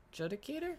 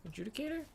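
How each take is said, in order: First: "Adjudicator" tried as juh-dicator, questioning lift; unsure first try at "Adjudicator", pitched up; unsure pronunciation. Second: "Adjudicator" retried as a-JOO-dicator, questioning lift; unsure second try at "Adjudicator", pitched up; unsure pronunciation. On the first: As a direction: say "Adjudicator" with a short JUD, rising high. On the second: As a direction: say "Adjudicator" with a long JOO, rising high. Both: Real, not acted. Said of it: "I don't know how to say your title".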